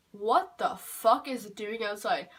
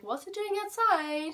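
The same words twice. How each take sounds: First: Slow, blunt, exasperated; blunt thought. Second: Higher, sweetly polite; softened question to the child; polite version. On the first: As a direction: drag it out, fed up. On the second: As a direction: keep it nice for the kid. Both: Retold or imitated. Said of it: "I didn't say it like that to the child".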